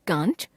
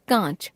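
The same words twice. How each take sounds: First: कांच with a full n before च; कांच as kānch on a rise; full n, rising. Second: कांच with nasal ā, no full n; nasalised vowel, falling. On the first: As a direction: say कांच as kānch, end lifted. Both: Shown as a demonstration. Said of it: "अनुस्वार और अनुनासिक संबंधी अशुद्धियां".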